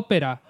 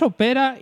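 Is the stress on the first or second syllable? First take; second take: first; second. First: The stress is on the first syllable. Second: The stress is on the second syllable. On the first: The speaker calls it wrong. "ópera es esdrújula y lleva acento en la O" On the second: The speaker calls it right. "ópera es llana, acabada en vocal"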